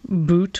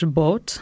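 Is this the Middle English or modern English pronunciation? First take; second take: modern English; Middle English. First: It is said with a modern English pronunciation. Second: It is said with a Middle English pronunciation. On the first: This is the present-day pronunciation. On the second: This is the older pronunciation.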